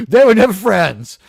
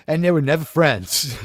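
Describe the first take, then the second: First: "They were never friends" said louder, stressing "never"; emphatic repeat. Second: Said in the usual way. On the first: Real, not acted. Streamer insisting to chat about [name] and [name], emphatic. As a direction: punch "never" hard the second time.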